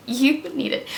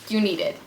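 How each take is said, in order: First: "You need it." with the pitch up on "You", pressed firmly; insistent repeat. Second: Laughing urge. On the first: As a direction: repeat it firmly as a must-have. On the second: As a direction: chuckle it as a teasing tip. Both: Real, not acted.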